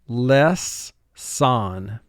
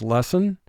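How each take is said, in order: First: The word is split with a pause between syllables. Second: The word is said smoothly as one unit. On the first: This is said to help with spelling. "but for spelling, less, son" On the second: This is how it is said in conversation. "the speaking or conversational way we pronounce the word is lesson"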